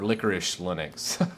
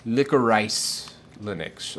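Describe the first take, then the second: First: Licorice ending in a soft "-ish"; licorice as "licorish". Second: Licorice said slowly, ending like the word "rice"; licorice as "lick-o-rice". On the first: Streamer offering the other reading, Licorice as "licorish". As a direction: say Licorice the candy way, "LICK-er-ish", a bit softer. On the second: Streamer unsure of a distro name, Licorice read as "lick-o-rice". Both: Shown as a demonstration. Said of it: "I don't know how to pronounce that".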